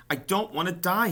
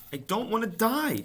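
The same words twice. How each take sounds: First: High, loud tearful moan. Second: Very high, loud desperate scream. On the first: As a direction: moan it through tears. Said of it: "he moaned". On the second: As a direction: scream it throwing yourself down. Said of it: "screamed Wilbur". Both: A narrator's reading.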